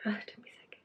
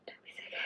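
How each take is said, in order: First: Softly fighting off sickness; quiet, queasy self-talk; nauseous murmur. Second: Faint whisper through nausea; barely breathed, holding it down; nauseous whisper. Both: Real, not acted. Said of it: "I had to take a second there".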